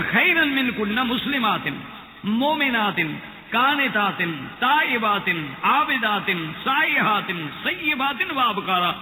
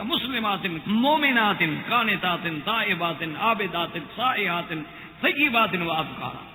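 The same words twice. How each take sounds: First: Emphatic Quran recitation. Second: Each word set apart with a falling close; measured Quran recitation. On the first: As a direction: proclaim the list to the congregation. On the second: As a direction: recite the list calmly, word by word. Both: Shown as a demonstration. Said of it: "اس لیے قرآن کہتا ہے کہ".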